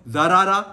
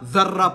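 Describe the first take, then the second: First: Two separate syllables with a vowel between consonants. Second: The two consonants merge into one doubled consonant. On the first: The speaker calls it wrong. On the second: The speaker calls it right.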